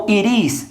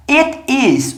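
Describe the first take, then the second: First: "it is" run together as one word; fast linked form. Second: Said in the usual way. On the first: Shown as a demonstration. Teacher showing students the spoken form, "it is" linked fast. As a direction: say "it is" quickly, the words linked. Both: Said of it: "se falar isso rápido".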